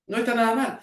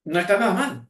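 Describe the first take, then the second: First: "No está nada mal" tossed off higher as an aside, ending on a rise on "mal"; lifted, rising aside "No está nada mal"; parenthetical aside. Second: Said in the usual way. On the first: Shown as a demonstration. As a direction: drop it in like a quick side comment in brackets. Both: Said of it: "entre paréntesis".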